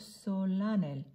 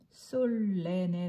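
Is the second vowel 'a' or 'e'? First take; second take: a; e. First: The second vowel sounds like 'a'. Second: The second vowel sounds like 'e'. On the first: The speaker calls it right. "솔라넬, 예외예요" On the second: The speaker calls it wrong. "솔레넬 아니고"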